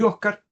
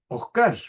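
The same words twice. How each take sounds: First: The stress is on the first syllable. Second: The stress is on the last syllable. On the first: This is the standard written form. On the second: This is a regional variant.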